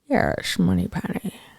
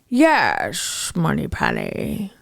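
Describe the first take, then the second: First: It is said with less breath and power. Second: It is said with fuller breath and power.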